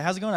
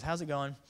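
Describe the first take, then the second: First: Loud, higher hail; calling out. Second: Said in the usual way. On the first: Acted. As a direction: shout it over to someone fishing. Calling to man casting net.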